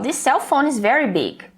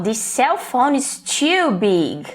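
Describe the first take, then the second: First: Said in the usual way. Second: Too big, said slowly with weight on too; stress on too. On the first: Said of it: "fui neutra". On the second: Shown as a demonstration. Customer complaining in the store, stress on too. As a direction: lean on "too" to show it's a problem. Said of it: "Agora, se eu falo".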